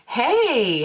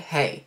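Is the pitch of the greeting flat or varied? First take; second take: varied; flat. First: The pitch moves up and down. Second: The pitch stays flat and level.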